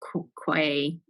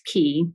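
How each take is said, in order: First: It is said with a kw and ay sound. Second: It is said exactly like the word key. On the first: The speaker calls it wrong. "not quay" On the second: The speaker calls it right. "It's key. They pronounce it key"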